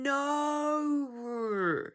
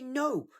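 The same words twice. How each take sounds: First: The vowel is drawn out with an R-like ending. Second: The vowel is plain with no R-like ending. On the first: The speaker calls it wrong. "You're going no. ... You've somehow added every single vowel sound into a two-letter word" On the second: The speaker calls it right. "Here we say no"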